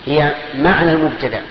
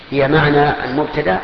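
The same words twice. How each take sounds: The two takes are said the same way.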